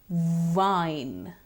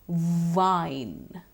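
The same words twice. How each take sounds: No difference in how they are said.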